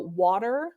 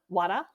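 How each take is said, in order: First: The r sound is clearly pronounced. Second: The r sound is dropped entirely.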